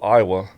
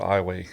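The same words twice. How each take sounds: First: It is said like the state's usual name. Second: It is said the way locals say it. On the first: "spelt just like the state of Iowa" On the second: "we pronounce it Iowa"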